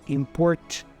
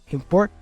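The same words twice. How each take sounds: First: The T is released with a burst. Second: The T is held without a burst. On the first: The speaker calls it wrong. "I don't say import" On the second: The speaker calls it right. "I don't release that T"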